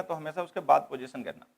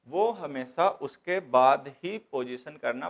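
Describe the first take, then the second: First: Said in the usual way. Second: Drawn-out, deliberate stress on "हमेशा" and "बाद ही"; slow and insistent, separating "हमेशा", "उसके", "बाद ही"; slow emphatic repeat. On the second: Shown as a demonstration. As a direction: spell the rule out slowly, leaning on "हमेशा" and "बाद ही". Rule repeated slowly for emphasis.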